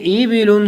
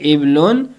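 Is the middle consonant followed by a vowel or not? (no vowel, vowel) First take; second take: vowel; no vowel. First: The second consonant is followed by a vowel. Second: The second consonant has no following vowel.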